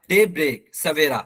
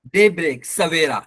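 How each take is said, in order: Both takes have the same delivery.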